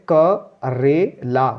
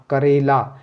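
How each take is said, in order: First: Slow, each syllable क रे ला split apart. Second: Said in the usual way. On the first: Shown as a demonstration. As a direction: sound out क रे ला slowly, one syllable at a time. (अक्षर-अक्षर अलग करके धीरे) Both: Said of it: "आगे का कबूतर है तो क बोलेंगे पहले".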